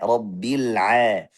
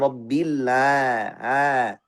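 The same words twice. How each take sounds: First: The ain has a narrow, throaty middle-throat friction. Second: The ain is widened into a long open vowel. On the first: The speaker calls it right. "Tapi a, rabbil a" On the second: The speaker calls it wrong. "Ketika kita luaskan makhrajnya jadi rabbil a, suaranya seperti mad"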